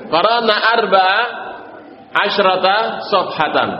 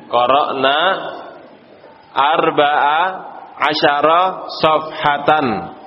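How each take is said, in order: First: Measured model answer with "asyrata" as asy-ra-ta; corrected wording. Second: Slow recital with "asyara" in three open syllables; repeating student's wording. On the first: Teacher confirming the correct answer, careful recital with "asyrata". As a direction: close up "asyrata" after asy and end it on ta. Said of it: "betul, al-muhim betul sudah". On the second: Teacher repeating a student's answer to the class, slow recital with "asyara". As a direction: say "asyara" as a-sya-ra, word by word. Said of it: "Ana ulangi ucapan antum ya". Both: Shown as a demonstration.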